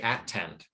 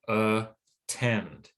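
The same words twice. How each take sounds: First: The first syllable has a full vowel. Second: The first syllable has a reduced vowel. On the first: The speaker calls it wrong. "we don't say at-tend" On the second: The speaker calls it right. "We say attend"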